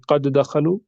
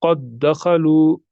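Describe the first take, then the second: First: "क़द दखलू" with each द sounded apart; plain-paced "क़द दखलू", first d released separately; wrong pronunciation. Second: Slow "क़द दखलू" with one held double d; drawn-out "क़द दखलू", the two द fused; merged pronunciation. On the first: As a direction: say "क़द दखलू" as "qad-a dakhalu", unmerged. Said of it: "हम ऐसे नहीं पढ़ेंगे". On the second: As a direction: recite "क़द दखलू" slowly as "qad-dakhalu". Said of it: "हम पढ़ेंगे". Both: Shown as a demonstration.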